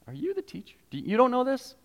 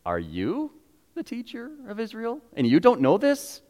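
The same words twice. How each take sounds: First: Mock-shocked and high; incredulous. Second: High, hushed disbelief; gently shocked he doesn't know; a high, astonished question; incredulous rebuke. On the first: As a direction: act amazed at the teacher's ignorance. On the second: Retold or imitated. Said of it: "Jesus goes".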